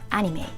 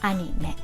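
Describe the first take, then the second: First: The vowels sound like English vowels. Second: The vowels are pure Japanese a and e. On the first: The speaker calls it wrong. "So this is not anime" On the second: The speaker calls it right. "but anime"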